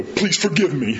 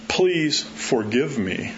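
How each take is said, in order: First: Laughing grudging please forgive me; mock sullen. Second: Slow, soft please forgive me; slow humble apology; slow sincere plea. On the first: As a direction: try it sulky and fail. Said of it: "hard to do that that way". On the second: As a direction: draw it out humbly. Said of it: "I've never heard anybody go". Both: Shown as a demonstration.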